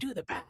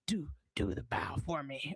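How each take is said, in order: First: Pennywise try. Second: Low whispered creepy clown; hushed, lower clown voice; Pennywise impression. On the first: Retold or imitated. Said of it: "I wanna get his voice". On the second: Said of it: "what's Pennywise's voice like?".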